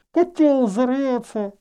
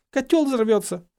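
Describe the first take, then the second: First: Slow, high, smothered by cloth; indistinct, drawn-out high voice; muffled warning. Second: High, clear repeat; raised, distinct warning; unmuffled warning. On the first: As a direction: warn through a cloth over the mouth. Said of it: "предостерегла Гермиона". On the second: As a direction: say it clearly with the cloth removed. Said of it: "отняла импровизированный фильтр от лица". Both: A narrator's reading.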